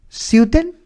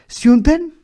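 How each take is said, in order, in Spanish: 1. La palabra se pronuncia con una distorsión de tipo eslavo. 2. La palabra se pronuncia con una distorsión de tipo eslavo.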